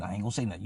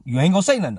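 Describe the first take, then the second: First: "I ain't gonna say nothing" dropped low and quiet; low, soft reply. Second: "You ain't gonna say nothing" punched higher and louder; raised, insistent. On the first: Two friends agreeing who talks, low quiet reply. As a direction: answer under the voice, pitched down. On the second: Two friends agreeing who talks, louder insistent voice. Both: Retold or imitated.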